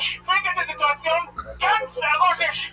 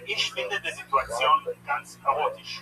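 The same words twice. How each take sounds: First: It is yelled loudly. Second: It is said at normal speaking volume.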